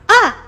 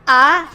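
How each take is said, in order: First: It is said as if surprised. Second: It is said as if doubting. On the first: "You just go in uh uh surprise" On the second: "I would say like you are doubting lah"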